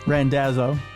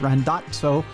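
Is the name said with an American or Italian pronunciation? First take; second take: American; Italian. First: The name is said the American way. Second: The name is said the Italian way. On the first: This is how the name's owner says it. "but it's Randazzo" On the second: This is how it is said in the old country. "If you want to talk about the old country, it's Randazzo"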